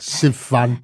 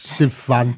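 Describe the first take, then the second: First: The stress is on the second syllable. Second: The same.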